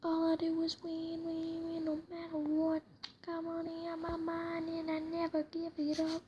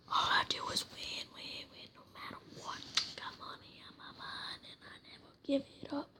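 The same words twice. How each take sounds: First: Sung aloud, louder; sung, belt it out a bit more; singing out loud. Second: Whispered singing. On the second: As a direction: sing it in a whisper. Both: Real, not acted. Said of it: "It's kind of my favorite song".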